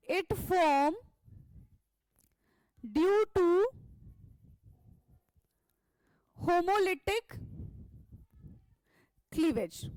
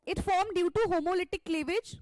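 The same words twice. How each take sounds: First: Word by word, long pauses between; dictating slowly. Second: Said in the usual way. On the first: Shown as a demonstration. Teacher dictating notes to class, slow and spaced. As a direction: spell it out slowly so students can write.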